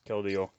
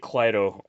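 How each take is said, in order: First: The name begins with a 'Kel' sound. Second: The name begins with a 'Kly' sound. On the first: The speaker calls it right. "It's Keldeo" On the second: The speaker calls it wrong. "I say Clydo. Um, I know that's not how you pronounce it"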